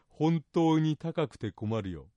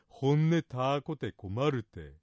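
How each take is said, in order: First: It is said in standard Japanese. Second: It is said in the local dialect.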